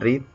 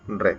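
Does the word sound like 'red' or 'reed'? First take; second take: reed; red. First: The vowel is long, like 'reed'. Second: The vowel is short, like 'red'. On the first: It is the present tense. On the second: It is the past tense.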